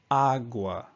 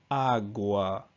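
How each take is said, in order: First: "agua" with a flat English A, like in "cat"; lazy English agua. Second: "agua" with both A's open, as in "father"; correct Spanish agua. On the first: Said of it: "you may have a tendency to say agua". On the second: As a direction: give both A's in "agua" the full "ah" sound. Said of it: "the A on the end still makes the same sound". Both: Shown as a demonstration.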